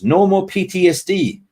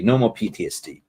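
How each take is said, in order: First: Higher, louder and gleeful; excited cheer. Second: Said in the usual way. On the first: Real, not acted. Streamer celebrating with chat that the suffering is over, excited and loud.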